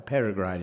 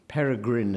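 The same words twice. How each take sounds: First: The i in the last syllable is long. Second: The i in the last syllable is short. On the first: It is not a name but a description. "is no such name" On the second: It is used as a personal name. "as a name has to be a short I"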